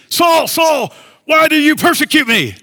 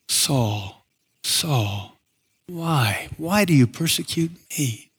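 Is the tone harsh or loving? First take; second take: harsh; loving. First: It is said in a harsh, accusing tone. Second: It is said in a tender, loving tone.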